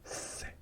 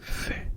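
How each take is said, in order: First: It is said with an s sound, Latin American. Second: It is said with a th sound, Spain style.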